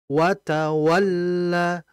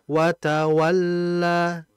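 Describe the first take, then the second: First: The voice rises and punches the doubled 'l'. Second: The doubled 'l' is said flat without emphasis. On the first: "ketika ke huruf tasydid itu ada sedikit naik suara"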